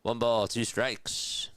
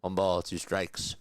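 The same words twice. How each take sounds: First: Slow, drawn-out, higher soothing call; relaxing voice. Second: Said in the usual way. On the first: Shown as a demonstration. Streamer showing chat his relaxing voice, slow and soothing. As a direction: lull chat with a slow gentle count. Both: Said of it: "This is my relaxing voice".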